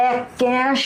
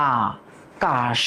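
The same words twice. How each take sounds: First: আকাশ said with a plain s sound, higher, as the wrong form; আকাশ with a hissing s instead of sh; wrong pronunciation. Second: আকাশ slowly stretched, ending in a clear sh sound, lower; correct pronunciation. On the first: Teacher shows the class the wrong way to say আকাশ. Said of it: "আমরা তো বলি না". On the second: Teacher shows the class the right way to say আকাশ. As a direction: draw out আকাশ with the sh at the end. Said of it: "আমরা বলি আকাশ". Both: Shown as a demonstration.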